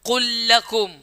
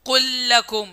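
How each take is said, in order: Both takes have the same delivery.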